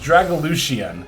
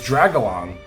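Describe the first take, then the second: First: The X in the name sounds like 'sh'. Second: The X in the name is not pronounced. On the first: The speaker calls it right. "The X is a she sound" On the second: The speaker calls it wrong. "I always thought it was silent"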